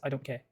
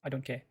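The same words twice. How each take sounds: First: The vowel in 'care' is cut short. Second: The vowel in 'care' is cut short.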